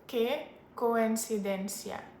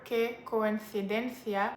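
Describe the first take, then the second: First: It is said in a Latin American accent. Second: It is said in an accent from Spain. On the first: "leaning towards more of like a Latin American accent" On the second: "if you are leaning towards the accent from Spain"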